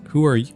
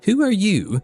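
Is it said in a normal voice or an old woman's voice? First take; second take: normal voice; old woman's. First: It is said in the speaker's normal voice. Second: It is said in a put-on grandma voice.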